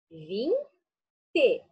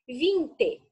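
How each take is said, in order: First: "Vinte" drawn out slowly to show its two syllables; "Vinte" said long and slow, teacher counting syllables; stretched for syllables. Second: Said in the usual way. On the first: Shown as a demonstration. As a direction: stretch out "Vinte" so the children hear each syllable. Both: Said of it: "Duas sílabas".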